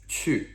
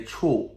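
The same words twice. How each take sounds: First: "Chu" with a rounded ü, falling tone; correct vowel in "Chu". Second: "chu" with a plain English oo, like "choo"; wrong vowel in "chu". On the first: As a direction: say "Chu" with ü, dropping in pitch. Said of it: "getting that vowel sound". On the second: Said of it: "make sure that we don't say". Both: Shown as a demonstration.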